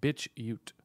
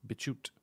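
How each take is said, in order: First: "BitChute" said as bitch-yute, falling; split pronunciation. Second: Said in the usual way. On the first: Shown as a demonstration. Puzzling over an unknown site's name, "BitChute" said as bitch-yute.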